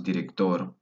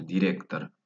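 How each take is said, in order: First: Said in the usual way. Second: "director" stressed on "rec", ending "tar"; "director" as Russian direktar, stress mid-word; Russian stress and vowels. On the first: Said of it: "porque va el acento director". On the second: Shown as a demonstration. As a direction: lean on "rec" and finish "director" with A. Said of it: "porque va el acento".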